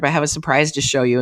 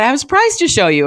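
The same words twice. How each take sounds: First: Said in the usual way. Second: Much higher, fast, teasing sing-song; excited surprise. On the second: Retold or imitated. Daughter teasing her parents about a surprise, high and eager. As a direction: bubble over with a secret. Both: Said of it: "And I said".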